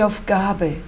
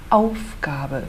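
First: The stress is on the middle syllable. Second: The stress is on the first syllable. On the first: The speaker calls it wrong. "Nada de Aufgabe" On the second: The speaker calls it right. "A nossa ênfase é no Aufgabe"

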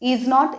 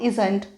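First: It is said as two full words. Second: It is said as one contracted word. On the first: "इज नॉटच्या ऐवजी" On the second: "आपण ही इजंट giving म्हणू शकतो"

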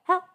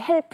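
First: The final p ends softly without an added puh. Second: The final p ends with a strong added puh. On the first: "정말 노래에서 help" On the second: "아이들이 만약에 help. 그렇죠? 푸드 많이 하고"

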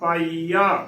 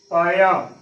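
First: The middle ee vowel is long. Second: The middle i vowel is short. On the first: The speaker calls it right. "ਈੜੀ ਨੂੰ ਬਿਹਾਰੀ ਈ" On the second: The speaker calls it wrong. "ਉਹ ਬਿਹਾਰੀ ਦੀ ਜਗ੍ਹਾ ਸਿਹਾਰੀ ਦੇ ਨਾਲ ਉਚਾਰਨ ਕਰ ਦਿੰਦੇ ਨੇ"

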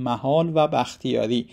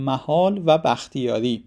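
The two takes are said the same way.

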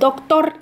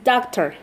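First: It is pronounced with Spanish sounds. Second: It is pronounced with English sounds. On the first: The speaker calls it wrong. "no es doctor" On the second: The speaker calls it right. "es doctor"

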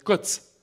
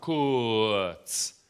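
First: The word is said expressively, sounding short. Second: The word is said plainly, without expression.

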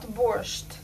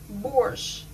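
First: The word ends with a t sound. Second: The word ends without a t sound. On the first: This is how foreigners say it. The speaker calls it wrong. "not borscht" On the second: This is how native speakers say it. The speaker calls it right. "So we pronounce it borscht"

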